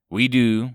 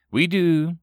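First: A hint of a gurgling alien; lightly voiced menacing ambassador; unpleasant alien voice. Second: Louder, grudging reply; grumbling. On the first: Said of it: "his unpleasant voice sounding like he was constantly on the verge of expelling". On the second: Acted. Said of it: "Wu grumbled".

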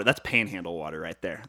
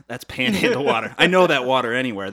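First: Said in the usual way. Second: Emphatic louder. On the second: Retold or imitated. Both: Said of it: "That guy says".

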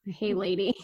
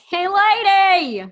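First: Said in the usual way. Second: High, loud, long-drawn call; playful holler. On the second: Pretend. Co-host playing with the newsletter name, hollering it comically. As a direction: holler it out, stretching both words.

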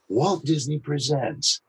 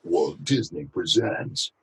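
First: Slow, soft copy of his trailer read; imitating Scott Rummel. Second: Said in the usual way. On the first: Shown as a demonstration. Voice actor copying a colleague's trailer read, imitative. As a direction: mimic his cadence, slowly. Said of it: "How could I imitate Scott Rummel". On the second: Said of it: "instead of".

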